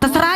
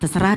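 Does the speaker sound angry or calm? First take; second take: angry; calm. First: It is said in an angry, annoyed tone. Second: It is said in a calm, easygoing tone. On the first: The speaker is upset and giving up. "berarti marah" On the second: The speaker sincerely leaves the choice to the other person. "kan abang yang tahu jalannya kemana"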